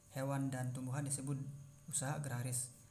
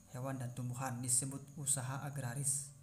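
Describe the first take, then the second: Both takes have the same delivery.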